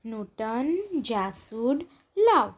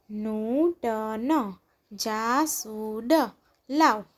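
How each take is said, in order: First: Said in the usual way. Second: નૂતન જાસૂદ લાવ slow, each syllable stretched; drawn-out નૂતન જાસૂદ લાવ, syllables separated. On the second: Shown as a demonstration. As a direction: sound out નૂતન જાસૂદ લાવ slowly, pausing between words. Syllable-by-syllable reading, then blended words.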